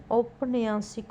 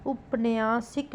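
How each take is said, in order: First: औपन्यासिक opening on au; correct pronunciation. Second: उपन्यासिक opening on short u; wrong pronunciation. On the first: Teacher giving the correction, औपन्यासिक starting "aup". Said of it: "होगा". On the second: Teacher showing a spelling error, उपन्यासिक starting "up". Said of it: "नहीं". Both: Shown as a demonstration.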